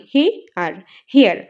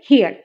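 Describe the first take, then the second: First: হে আর hair broken into two parts, হে then the rest; split into two syllables. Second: Said in the usual way. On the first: Shown as a demonstration. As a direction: say hair in two separate beats, হে and য়ার. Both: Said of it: "এই যে দুই ভাগে ভাগ করলাম".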